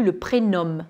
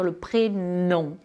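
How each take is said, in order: First: "prénom" ending in a fully sounded M, "pré-nomme"; wrongly sounded M. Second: "prénom" ending in a nasal "on", M silent; nasal French vowel. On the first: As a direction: close the lips on the M of "prénom". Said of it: "le M, là, il est". (« prénom » avec le M final prononcé) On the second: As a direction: let the end of "prénom" go into the nose without an M. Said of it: "le M, là, il est, il, il est dans le, dans le nez". (« prénom » avec la voyelle nasale, M muet) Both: Shown as a demonstration.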